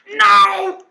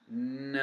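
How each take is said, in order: First: It is said upset, like Zero losing pancakes. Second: It is said flatly, without feeling.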